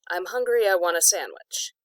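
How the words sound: There is a really short pause between sentences.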